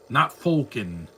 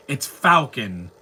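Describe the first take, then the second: First: "Falcon" said as "Foal-con", slowly; wrong Falcon. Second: "Falcon" with the "a" of "cat", slow and drawn out; right Falcon. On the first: Mocking the wrong way of saying "Falcon" as "Foal-con". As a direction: say "Falcon" with an "oh" vowel, drawn out. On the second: Correcting the fans on saying "Falcon" as "Fal-kin". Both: Shown as a demonstration.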